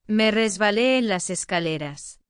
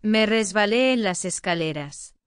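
Both takes have the same delivery.

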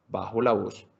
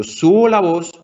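First: Voz más baja. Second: Voz más alta. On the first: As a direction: drop to a soft, low bajo la voz. (bajando la voz, suave y grave) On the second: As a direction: raise the voice on subo la voz. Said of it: "yo subo la voz". (subiendo la voz) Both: Shown as a demonstration.

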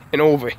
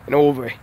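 Both takes have the same delivery.

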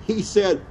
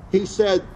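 Both takes have the same delivery.

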